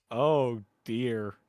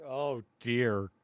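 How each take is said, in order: Both takes have the same delivery.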